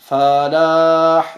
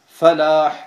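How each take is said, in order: First: The vowel after the F is lengthened. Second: The vowel after the F is short. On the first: The speaker calls it wrong. "das ist falsch" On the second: The speaker calls it right. "weil es heißt Falah"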